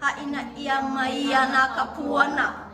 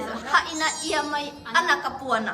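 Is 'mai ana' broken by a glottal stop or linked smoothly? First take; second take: smooth link; glottal stop. First: 'Mai ana' runs together without a break. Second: A glottal stop breaks before 'ana'. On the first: The speaker calls it right. "沖縄のないところに沖縄入れない" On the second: The speaker calls it wrong. "って言っちゃう人が多い"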